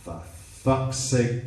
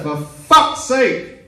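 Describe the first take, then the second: First: Slow, drawn-out exasperation; exasperated. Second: High, loud, drawn-out yell; exasperated shout. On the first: Girlfriend losing patience with shaken man, slow exasperation. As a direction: draw it out with patience gone. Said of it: "she changed her tone of voice". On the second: Girlfriend yelling at shaken boyfriend, exasperated shout. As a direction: bellow it slowly at full exasperation. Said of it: "I've been shouted at by two people". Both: Retold or imitated.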